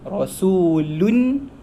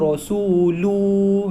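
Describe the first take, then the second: First: The word ends with a short vowel and n. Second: The word ends with a long vowel, no n. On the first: The speaker calls it right. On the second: The speaker calls it wrong.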